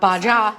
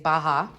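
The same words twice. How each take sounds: First: The letter j is sounded in the word. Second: The letter j is silent in the word. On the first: The speaker calls it wrong. "It's not Baja. Silent J" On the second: The speaker calls it right. "Apparently it's Baja, which is cool"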